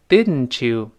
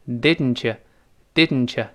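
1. t 和 you 合并成一个完整的 ch。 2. 语速更快时，you 弱化成 ye。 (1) "碰到了you 前面的ye 一定变成ch，所以是读成didn't you" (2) "读得再快一点呢，那个you 又会弱化成ye"

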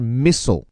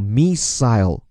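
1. 这个词是用美式发音读的。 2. 这个词是用英式发音读的。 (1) "而美国人是missile" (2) "而在英音当中呢叫missile"

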